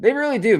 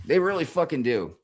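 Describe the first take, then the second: First: Higher, louder "They really do"; emphatic agreement. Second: Said in the usual way. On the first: Real, not acted. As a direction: hit it hard, fully agreeing. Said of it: "agreeing emphatically". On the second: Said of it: "repeats agreement".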